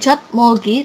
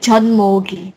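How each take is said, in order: First: A t sound comes before the m. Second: An n sound comes before the m. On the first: The speaker calls it wrong. "bukan Jot Mogi" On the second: The speaker calls it right. "tapi John Mogi"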